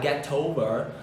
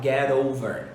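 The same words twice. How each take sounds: First: The t is said clearly, words kept apart. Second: The t links into 'over' as an r-like sound. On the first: "ao invés de você falar get over" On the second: "você pode juntar e fazer um sonzinho de R"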